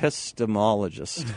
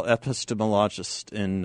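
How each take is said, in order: First: Epistemologist with the stress moved onto MOL, ending in a rise; corrected stress. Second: Epistemologist said with the stress misplaced; wrong stress. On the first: Shown as a demonstration. Correcting himself after the co-host's jab, stressing MOL. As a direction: fix it: episteMOLogist, a little sheepish. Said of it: "put the emphasis on the wrong syllable". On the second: Real, not acted. Host introducing a guest, stress on the wrong syllable. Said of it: "emphasis on the wrong syllable".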